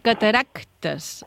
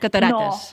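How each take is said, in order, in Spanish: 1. Se oye un sonido k antes de la t. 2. No se oye ningún sonido k antes de la t. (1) "però hauríem de dir cataractes, amb una C" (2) "aquesta C... que normalment no la diem, diem catarates"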